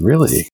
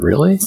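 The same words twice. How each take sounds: First: Said in the usual way. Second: Sharp rising surprised question; higher rising really?. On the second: Retold or imitated. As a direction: really, caught off guard. Retold surprised reply to professor.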